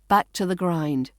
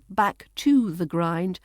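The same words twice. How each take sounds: First: The word 'to' is reduced to schwa. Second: The word 'to' has a full vowel. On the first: The speaker calls it right. "It's the weak form" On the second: The speaker calls it wrong. "so it's not"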